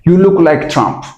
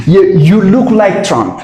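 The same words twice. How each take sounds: First: Said in the usual way. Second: Slow, each word laid out for students; slow teaching repeat. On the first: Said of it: "normal repeat". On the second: Shown as a demonstration. Teacher models the sentence slowly for the students. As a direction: spell out You, you look like Trump word by word. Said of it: "slow teaching repeat".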